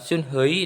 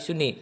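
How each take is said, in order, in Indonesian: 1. Nama itu memiliki bunyi h di tengah. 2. Nama itu tidak memiliki bunyi h di tengah. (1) "suni bukan sunhei" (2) "tapi suni"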